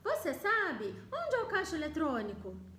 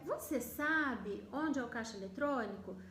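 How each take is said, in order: First: The final clause gets its own separate question tune. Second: It has one question tune over the whole sentence. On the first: It sounds like two separate questions are being asked. The speaker calls it wrong. "eu não vou manter essa entonação... Porque daí eu estaria fazendo duas perguntas" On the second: It is a single polite indirect question. The speaker calls it right. "Percebe que eu mudo a entonação da minha segunda pergunta?"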